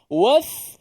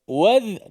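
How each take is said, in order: First: The final consonant leaks breath, sounding like th. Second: The final consonant is voiced with no breath escaping. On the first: The speaker calls it wrong. "ah kita keluarkan angin" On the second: The speaker calls it right. "dia hanya suara saja yang bergerak. Nafas tak keluar, nafas tersekat"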